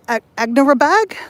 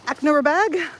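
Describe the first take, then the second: First: Hesitant, rising "Agnerabad?"; unsure pronunciation attempt. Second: Retry "Agnerabad" without the stumble, tune falling; "Agnerabad" as a falling correction; second pronunciation attempt. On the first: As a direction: stumble on "Ag-", then "Agnerabad" higher with a questioning rise. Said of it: "I can never get this right". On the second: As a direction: say "Agnerabad" in one go, ending on a fall. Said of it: "Sorry, I butchered that". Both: Real, not acted.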